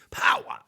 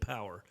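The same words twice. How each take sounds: First: It is said dramatically, like some preachers. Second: It is said plainly, in an ordinary voice.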